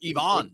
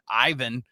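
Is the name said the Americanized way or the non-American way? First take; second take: non-American; Americanized. First: The name is said with a non-American pronunciation. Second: The name is said with an Americanized pronunciation. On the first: It sounds refined. The speaker calls it right. "That sounds so refined" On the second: It sounds unsophisticated. The speaker calls it wrong. "Americanized Ivan. Sound like a hick when I say Ivan"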